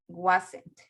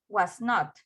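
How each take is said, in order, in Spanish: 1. Se dice como una palabra contraída. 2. Se dice como dos palabras completas separadas. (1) "lo puedo decir en forma corta" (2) "yo digo was not"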